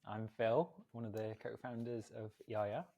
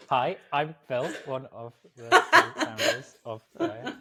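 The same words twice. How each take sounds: First: Slightly stilted podcast intro, rising at the end; staccato, awkward introduction. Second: Mock staccato intro, higher and louder; awkward staccato. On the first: Real, not acted. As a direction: introduce yourself a little awkwardly, softly. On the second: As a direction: exaggerate a stilted, word-by-word podcast introduction. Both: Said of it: "that slightly weird staccato, awkward".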